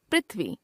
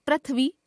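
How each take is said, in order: First: Said in the usual way. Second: पृथ्वी as "prath-vee"; mispronounced ri. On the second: Shown as a demonstration. Teacher showing a common error, पृथ्वी with ra for ri. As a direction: put "ra" for "ri" in पृथ्वी. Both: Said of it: "र, री संबंधी अशुद्धियां".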